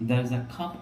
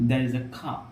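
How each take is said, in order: No difference in how they are said.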